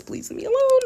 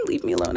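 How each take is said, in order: First: High squeaky mock plea; mock whiny plea. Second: Breathy whispered repeat. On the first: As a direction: whine it like a playful brat. Joking demand for only five stars. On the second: Pretend. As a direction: drop to a playful whisper.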